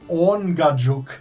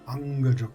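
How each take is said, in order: First: The first syllable sounds like 'orn' in awning. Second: The first syllable does not sound like 'orn'. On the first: The speaker calls it right. "Like Orn is in awning" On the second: The speaker calls it wrong. "I was totally wrong"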